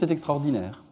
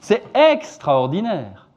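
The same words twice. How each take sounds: First: A light stress falls on the last syllable. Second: The stress falls strongly on another syllable.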